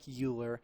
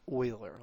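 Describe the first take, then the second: First: The name begins with a 'yoo' sound. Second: The name begins with an 'oy' sound. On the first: The speaker calls it wrong. "I know it looks like Euler" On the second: The speaker calls it right. "It is pronounced Euler, like oil with an E R at the end"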